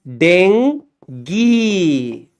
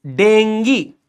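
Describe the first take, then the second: First: डेंगी split into a long den, then geee; very slow, lowered डेंगी in two syllables; syllable-by-syllable pronunciation. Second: Said in the usual way. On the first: Shown as a demonstration. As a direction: stretch each half of डेंगी for the class. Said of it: "इसका pronunciation क्या है?". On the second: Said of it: "ऐसे तो pronounce करते हैं अपन इसको".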